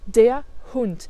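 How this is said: It is said the German way, breaking before h. The speaker calls it right. "On fait une petite coupure juste avant le H"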